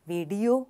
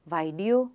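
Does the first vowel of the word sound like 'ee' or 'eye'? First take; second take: ee; eye. First: The first vowel sounds like 'ee'. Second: The first vowel sounds like 'eye'. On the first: The speaker calls it right. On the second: The speaker calls it wrong.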